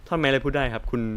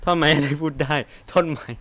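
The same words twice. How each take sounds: First: Said in the usual way. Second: Incredulous. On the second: Shown as a demonstration. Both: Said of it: "ไอ้ที่กูเล่นมาตั้งแต่เริ่มนี้ก็คือแบบ".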